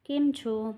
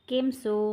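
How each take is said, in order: First: The second word starts with a ch sound. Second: The second word starts with an s sound. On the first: This is the standard language form. "Gujarati ભાષા" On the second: This is the local dialect form. "સ્થાનિક બોલી"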